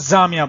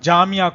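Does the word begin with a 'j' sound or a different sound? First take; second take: different sound; 'j' sound. First: The word begins with a sound other than 'j'. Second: The word begins with the 'j' (jeem) sound. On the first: The speaker calls it wrong. "वो गलती करते हैं" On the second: The speaker calls it right. "जामिया इसी जीम से लिखा जाता है"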